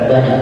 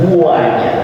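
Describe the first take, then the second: First: The word is said plainly, without extra emphasis. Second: The word is stretched out with strong emphasis. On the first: An ordinary amount. "Rasanya bukan banyak" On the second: A very great amount, far more than ordinary. "tapi banyak. Itu namanya fi'il tafdil atau isim tafdil"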